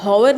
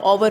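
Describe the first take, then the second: First: हॉवर with an audible h at the start; h sounded. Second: आवर starting straight on the vowel, no h; silent h. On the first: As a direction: say हॉवर, wrongly sounding out the h of hour. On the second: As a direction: say आवर, the correct hour with its h silent. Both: Shown as a demonstration. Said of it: "इसमें एच silent है".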